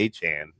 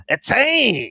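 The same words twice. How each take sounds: First: Said in the usual way. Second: A loud, high-pitched, hammed-up Creole-accented "Achane!"; mock Creole accent. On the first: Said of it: "I can say Achane". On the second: Shown as a demonstration. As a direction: shout "Achane!" with a much higher, exaggerated Creole flair. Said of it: "I have no idea what an accent is supposed to be like".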